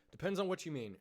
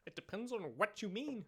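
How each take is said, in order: First: Said in the usual way. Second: High, put-on voice; higher teasing tone; high mock voice. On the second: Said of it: "It's like".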